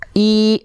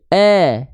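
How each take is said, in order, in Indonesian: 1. Vokalnya terdengar seperti i yang jelas. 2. Vokalnya terdengar terbuka, seperti eh. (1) "Kalau dia ngangkat i" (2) "tengah lidahnya nggak kurang naik. Begini jadinya"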